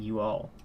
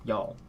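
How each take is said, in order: First: Two full words are said separately. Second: The two words merge into one syllable. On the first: "I'm just contracting you all into one word" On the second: "contracting you all into one word"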